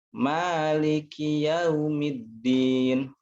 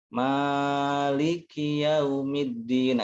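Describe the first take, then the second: First: The long vowel is held two beats, swung. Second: The long vowel is held much too long. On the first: The speaker calls it right. "untuk pembiasaan boleh di diayun" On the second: The speaker calls it wrong. "itu kepanjangan"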